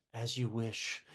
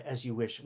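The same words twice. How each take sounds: First: Soft, low, devoted murmur; tender devotion. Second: Quiet, lower loving reply; tender devotion. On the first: Wesley answering Buttercup, soft and devoted. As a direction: say it like a loving servant, hushed. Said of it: "who's basically says". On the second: Wesley's code word for love, said softly. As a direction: murmur it like a hidden I love you. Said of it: "his code word for I love you". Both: Retold or imitated.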